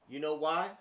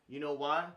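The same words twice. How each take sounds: Both takes have the same delivery.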